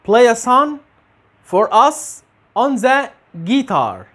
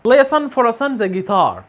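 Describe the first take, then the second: First: The words are said separately, without linking. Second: Final consonants join the following vowels smoothly.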